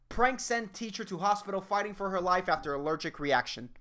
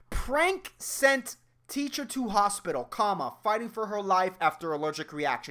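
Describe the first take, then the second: First: It runs on without a break after hospital. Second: There is a break after hospital.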